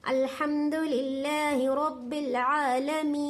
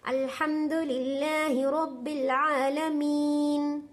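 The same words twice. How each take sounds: First: आलमीन drawn out to four counts in slow recitation; tajweed recitation stretching आलमीन further; longer elongation. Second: आलमीन stretched long in slow Quran recitation; slow tajweed recitation with a long madd on आलमीन; elongated recitation. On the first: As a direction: hold the madd of आलमीन longer. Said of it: "चार तक भी खींच सकती हैं". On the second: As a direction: draw out the vowel of आलमीन slowly. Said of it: "इतना भी खींच सकती हैं". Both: Shown as a demonstration.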